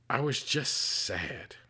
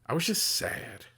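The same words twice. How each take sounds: First: Slow, heavy, sad repeat; real sadness. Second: Said in the usual way. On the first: Real, not acted. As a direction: let the grief slow every word. Repeats the line, grieving uncle.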